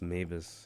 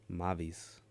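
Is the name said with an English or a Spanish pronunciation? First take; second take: English; Spanish. First: The name is said with English vowels and sounds. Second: The name is said with Spanish vowels and sounds. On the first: The speaker calls it wrong. "not pronounced Mavis" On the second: The speaker calls it right. "Is how you say it"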